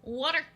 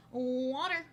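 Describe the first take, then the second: First: "Water" with an open "ah" vowel, high and loud; "Water" as a raised, questioning "wah-ter"; accent test word. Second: "Water" with a rounded "aw" vowel; "Water" as a drawn, questioning "waw-ter"; accent test word. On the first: Demonstrates own accent on test word. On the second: Second take of accent test word. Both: Shown as a demonstration.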